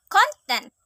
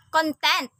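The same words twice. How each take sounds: First: CONtent, high stressed first syllable; noun stress. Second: ConTENT, second syllable stressed; verb stress. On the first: Teacher showing learners the noun Content, front-stressed. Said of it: "a noun". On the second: Teacher showing learners the verb Content, end-stressed. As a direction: say Content with the weight on its last syllable. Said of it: "a verb". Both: Shown as a demonstration.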